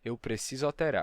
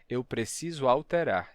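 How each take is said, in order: First: The middle vowel of alterar is dropped. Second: The middle vowel of alterar is fully heard. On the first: "e sim" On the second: "Eu não disse"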